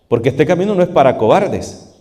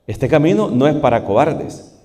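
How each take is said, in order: First: "no" hit hard and falling; stress on no. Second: "camino" lifted with a rising tune; stress on camino. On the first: Preacher pressing his flock, stress on "no". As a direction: lean on "no" in "no es para cobardes". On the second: Preacher repeating the line, stressing "camino". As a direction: put the weight on "camino", end rising. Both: Shown as a demonstration.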